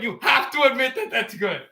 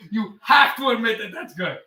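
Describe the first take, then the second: First: Mock British. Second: Said in the usual way. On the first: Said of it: "doesn't speak a British accent".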